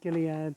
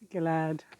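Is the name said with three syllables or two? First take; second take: three; two. First: The name has an extra E vowel, three syllables. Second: The name drops the E vowel, two syllables. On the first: This is how the speaker says it. "I say the E" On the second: This is how others say it. "They don't say the E"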